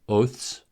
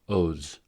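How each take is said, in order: First: The ending is voiceless, like th plus s. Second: The ending is voiced, like th plus z. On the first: "the voiceless consonant cluster ths" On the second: "the voiced consonant"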